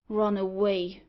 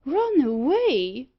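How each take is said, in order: First: Said in the usual way. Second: Higher, louder, slow, disbelieving; shocked exclamation. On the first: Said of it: "replied Thorneycroft". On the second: Acted. Loftus echoing the news in loud, slow disbelief. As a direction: echo it back in shock. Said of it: "exclaimed Loftus".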